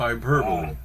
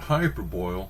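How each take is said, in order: First: The word ends with a 'bully' sound. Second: The word ends rhyming with 'boil'. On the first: The speaker calls it right. "it's hyperbole" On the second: The speaker calls it wrong. "It's not hyperboil"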